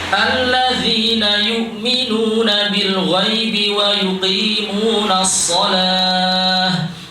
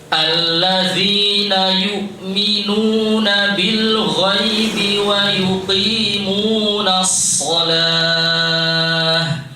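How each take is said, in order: First: It is recited at a medium pace. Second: It is recited at a very slow pace. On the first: "Ini tempo apa? Tadwir ya" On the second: "Kalau tahqiq ya lebih pelan lagi ya"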